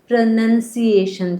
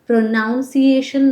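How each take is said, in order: First: The second syllable sounds like 'nun'. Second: The second syllable sounds like 'noun'. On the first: The speaker calls it right. "પ્રનન્સિએશન છે" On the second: The speaker calls it wrong. "પ્રોનાઉન્સિએશન નથી"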